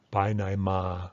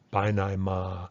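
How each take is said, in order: The two takes are said the same way.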